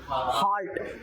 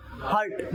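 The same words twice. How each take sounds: First: हार्ट said as heart, long open a; हार्ट with a long aa vowel, as in heart; heart pronunciation. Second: हार्ट said as hurt, short uh vowel; हार्ट with a short central vowel, as in hurt; hurt pronunciation. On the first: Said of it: "इसकी जो pronunciation होती है हार्ट". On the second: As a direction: clip हार्ट to hurt, meaning to injure. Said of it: "ये होता है बेटा हार्ट". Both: Shown as a demonstration.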